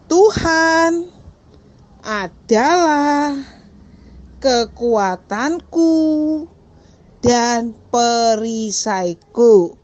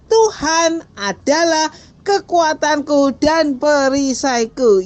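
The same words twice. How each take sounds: First: The sentence is spoken slowly. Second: The sentence is spoken quickly. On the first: "Pelan-pelan dulu ya" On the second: "Cepat lagi"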